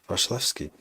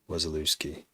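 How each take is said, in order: First: The name starts with a V sound. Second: The name starts with a W sound. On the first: "I pronounce it in many different ways" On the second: "I anglify it so that people get the W"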